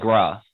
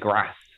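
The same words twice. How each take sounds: First: The vowel is long and broad, like 'ah'. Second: The vowel is short, as in 'cat'. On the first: The speaker is from the south of England. "a Southerner will say grass" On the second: The speaker is from the north of England. "like they say it with a short A"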